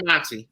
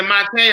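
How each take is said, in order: First: Monty ending in an "ee" sound; pronounced Monty. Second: Monte ending in an "ay" sound; pronounced Monte. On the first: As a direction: say Monty as "MON-tee". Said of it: "It's Monty". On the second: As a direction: say Monte as "MON-tay". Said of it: "is it Monte or Monty". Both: Shown as a demonstration.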